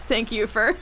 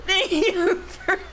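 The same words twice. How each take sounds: First: Said in the usual way. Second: High, squeaky break into real laughter; laughing. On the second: Real, not acted. Reader loses it thanking the game, laughing. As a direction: crack up mid-phrase, slow and higher. Cracks up repeating the words.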